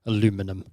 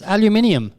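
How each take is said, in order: First: Aluminum said a-LOO-mi-num, low and soft; mock the American aluminum, low and quiet; aluminum in four syllables, a-LOO-mi-num. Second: Aluminium said al-yoo-MIN-ee-um, higher; aluminium the British way, al-yoo-MIN-ee-um. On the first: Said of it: "made-up American pronunciations". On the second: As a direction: give aluminium five syllables, stress on MIN. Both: Shown as a demonstration.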